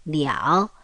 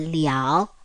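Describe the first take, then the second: First: It is said as the full syllable liao. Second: The same.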